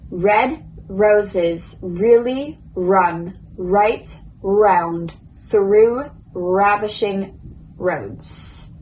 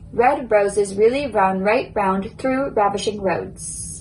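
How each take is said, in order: First: The sentence is spoken slowly and carefully. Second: The sentence is spoken at a moderate speed. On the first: "So first, slow" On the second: "now I will say it a little bit quicker"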